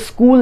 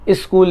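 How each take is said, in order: First: The word starts directly with the s sound. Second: An extra i vowel comes before the s. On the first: The speaker calls it right. "इस वजह से ये स्कूल है" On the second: The speaker calls it wrong. "स्कूल के साथ आई नहीं लगाया जाता"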